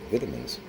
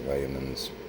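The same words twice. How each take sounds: First: The word is said in an English accent. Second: The word is said in a plain, non-English accent.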